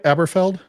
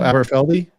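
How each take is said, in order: First: The name ends on the 'feld' syllable. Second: The name ends with an added 'ee' syllable. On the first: The speaker calls it wrong. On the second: The speaker calls it right.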